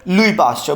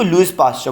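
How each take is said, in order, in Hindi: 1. "Louis" के अंत का s मौन है। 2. "Louis" के अंत का s उच्चारित होता है। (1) "actually word is लुई Pasteur" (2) "अब बच्चे इसको लुइस पास्चर पढ़ते हैं"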